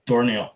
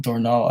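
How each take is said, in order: First: Dornall ending like "neel" or "nail". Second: Dornall ending in open "nahl"; Dornall without I. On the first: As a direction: close front vowel before the L in Dornall. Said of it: "That looks like an I before the L". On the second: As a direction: try the name Dornall as "dor-NAHL". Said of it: "I don't think that's an I". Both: Shown as a demonstration.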